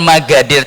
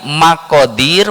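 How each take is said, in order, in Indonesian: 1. Konsonan di tengah itu bunyi g. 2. Konsonan di tengah itu bunyi k. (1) "tulisannya ko tapi bacanya" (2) "Tulisannya itu bukan Magadir tapi Makodir"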